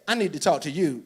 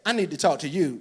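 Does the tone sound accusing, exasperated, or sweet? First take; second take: accusing; accusing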